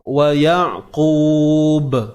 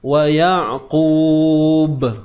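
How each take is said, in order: The two takes are said the same way.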